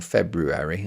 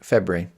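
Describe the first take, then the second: First: Every sound of the written word is pronounced. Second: Some sounds are dropped from the word. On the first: "If you say it correctly, it sounds so wrong" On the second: "you have to say it wrong, and you just say it as February, which is F E B R I"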